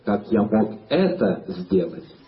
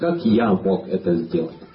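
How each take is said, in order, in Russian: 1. Слово 'я' не несёт особого ударения. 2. Слово 'я' несёт главное ударение.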